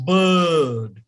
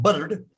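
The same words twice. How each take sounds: First: BIRD with a long "uh", no R; English, silent R. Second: BIRD with the R pronounced; wrong, R sounded. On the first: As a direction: stretch BIRD slowly into "buhd". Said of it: "don't even speak the sound R". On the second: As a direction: say BIRD short, as "burrd". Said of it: "it's not bird". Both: Shown as a demonstration.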